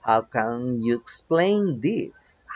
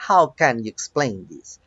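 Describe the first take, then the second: First: Slow, stretched-out example question; slow model reading. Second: Said in the usual way. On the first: Shown as a demonstration. Teacher reads an example to students, slowly word by word. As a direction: draw out each word for learners.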